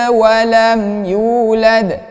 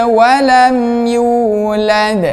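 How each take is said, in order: Both takes have the same delivery.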